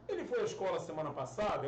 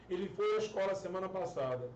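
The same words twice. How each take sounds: First: "Ele foi à escola semana passada?" asked as a yes-no question; question intonation. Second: Said in the usual way. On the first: Shown as a demonstration. Teacher showing Portuguese questions change only by tune, "Ele foi à escola semana passada?" in question intonation. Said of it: "É uma pergunta". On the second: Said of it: "É só mudar a entonação em português".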